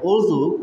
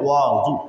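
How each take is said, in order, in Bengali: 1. প্রথম স্বরধ্বনিটি একটি গোলাকার 'u' ধ্বনি। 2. প্রথম স্বরধ্বনিটি একটি খোলা 'a' ধ্বনি। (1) "অয়ের ওপরে পেশ দিয়ে উচ্চারণ করেন" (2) "ওয়ে জবর দিয়ে উচ্চারণ করেন"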